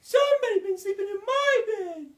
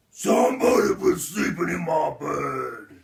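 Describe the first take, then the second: First: Loud, very high falsetto mother bear; shrill it out as an indignant mother bear; high-pitched, loud bear complaint; Mama Bear. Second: Loud, booming father bear; shouted, indignant bear roar; Papa Bear. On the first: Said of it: "And Mama Bear says". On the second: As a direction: bellow it like the big bear. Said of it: "Papa Bear walks into his room and says". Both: A narrator's reading.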